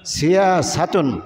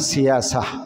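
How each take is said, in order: First: The word ends with the full '-tun' ending. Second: The word is cut short, ending in '-a'. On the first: This is the full Arabic form of the word. "আরবি শব্দটা হলো সিয়াসাতুন" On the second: This is the form used when stopping on the word. "এটারে অক্ফ করে বললে হয় সিয়াসা"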